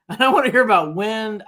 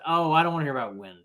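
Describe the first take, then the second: First: Laughing and louder, a bit higher. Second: Said in the usual way. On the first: Real, not acted. Host scoffing at the wind excuse on air, laughing. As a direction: laugh it off in disbelief.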